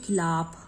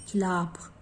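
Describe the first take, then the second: No difference in how they are said.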